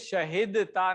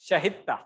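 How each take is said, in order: First: The d is pronounced separately before the t. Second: The d is silent, leaving a doubled t. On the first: The speaker calls it wrong. "शहिदता नहीं कह रहे हैं हम इसको" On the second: The speaker calls it right. "दाल साइलेंट हो जाती है, ता पे शद आ जाती है"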